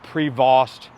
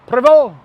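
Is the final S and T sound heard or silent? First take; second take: heard; silent. First: The final S and T sounds are pronounced. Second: The final S and T sounds are silent. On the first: The speaker calls it wrong. "It's not Prevost, even though it's an S T" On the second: The speaker calls it right. "That's how you say it"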